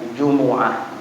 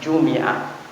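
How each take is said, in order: First: A u vowel follows the m sound. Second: An i vowel follows the m sound. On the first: "boleh didhammahkan bunyinya Jumu'ah. Dan itu yang paling afsah" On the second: "boleh dikasrahkan bunyinya Jumi'ah"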